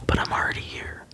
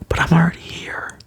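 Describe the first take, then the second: First: It is said quietly. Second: It is said loudly.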